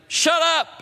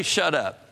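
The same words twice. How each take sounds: First: Sharp, much higher and louder snap; brash shut up. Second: Said in the usual way. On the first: Shown as a demonstration. Preacher showing what God did not say, brash loud snap. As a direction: bark it out rudely. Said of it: "it's not like a brash statement". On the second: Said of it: "He didn't say".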